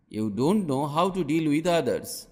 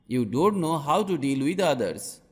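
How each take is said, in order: Both takes have the same delivery.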